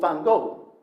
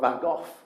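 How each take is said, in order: First: The name is said in an American way. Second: The name is said in an English way. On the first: "depending on whether you're American or English" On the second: "depending on whether you're American or English"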